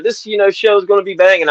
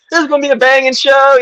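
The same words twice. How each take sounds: First: Said in the usual way. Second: Much higher, louder hype call; hyped announcer promo. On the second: Retold or imitated. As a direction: sell the show like an announcer. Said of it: "I remember I said".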